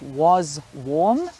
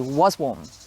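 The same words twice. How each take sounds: First: The two words are said separately and slowly. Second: The two words are run together quickly. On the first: The speaker calls it wrong. "instead of" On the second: The speaker calls it right. "the same happens"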